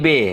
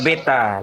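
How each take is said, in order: First: The word is cut to one short syllable. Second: The word is said in full, two syllables.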